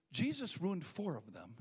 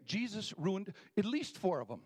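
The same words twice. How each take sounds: First: Slowed down, each word weighed; a slower, measured retelling; slow deliberate restatement. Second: Louder and higher, driven home; a punchier restatement; said again with more force. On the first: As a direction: lay the words down slowly. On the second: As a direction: push the line out the second time. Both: Shown as a demonstration. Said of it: "Let me say that again".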